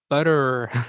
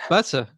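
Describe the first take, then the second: First: It is said with an American accent. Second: It is said with a non-American accent. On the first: The listener finally understood it. "Like this" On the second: The listener could not understand it. "I said"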